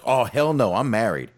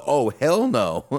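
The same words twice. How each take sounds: First: Loud, higher, emphatic "Oh, hell no"; imitating an excited refusal. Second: Slow, high, louder "Oh, hell no" stretched out; mock fearful enthusiasm. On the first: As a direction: echo her delighted horror. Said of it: "just the way she said it, the enthusiasm". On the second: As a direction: drag it out with comic alarm. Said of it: "the fear almost".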